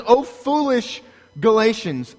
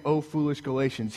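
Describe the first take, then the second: First: "Oh, foolish Galatians" louder and higher, scolding; preacher thundering "Oh, foolish Galatians"; preached rebuke. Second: Softer, mild, almost tender chiding of "Oh, foolish Galatians"; the meek version of "Oh, foolish Galatians"; soft gentle rebuke. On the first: Acted. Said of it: "He says". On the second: Shown as a demonstration. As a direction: say "Oh, foolish Galatians" softly, like a sigh. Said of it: "don't hear me saying".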